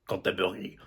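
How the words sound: It is said with a French accent.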